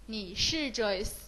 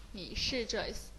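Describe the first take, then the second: First: Slow model sentence. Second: Said in the usual way. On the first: Shown as a demonstration.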